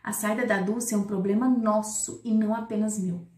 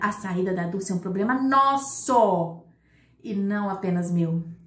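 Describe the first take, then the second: First: The word nosso gets no special emphasis. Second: The word nosso is emphasized with a raised voice.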